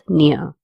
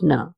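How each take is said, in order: First: The n is followed by a y glide. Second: The n is plain, with no y glide. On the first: The speaker calls it right. "makes that N sound as near" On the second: The speaker calls it wrong. "instead of"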